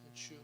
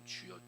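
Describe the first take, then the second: First: It is said carelessly, without feeling. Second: It is said earnestly, with deep longing.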